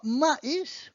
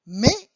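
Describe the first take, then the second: First: Maïs split as "ma-EES"; two-syllable maïs. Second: Mais as "meh", silent S; one-syllable mais. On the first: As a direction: sound A and I separately in maïs, with final S. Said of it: "you have to separate it and pronounce it". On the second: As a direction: merge the vowels in mais into one "eh". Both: Shown as a demonstration.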